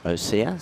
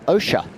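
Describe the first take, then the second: First: The middle consonant does not sound like 'sh'. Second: The middle consonant sounds like 'sh' in ocean. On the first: The speaker calls it wrong. "Not Osea" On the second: The speaker calls it right. "as in ocean"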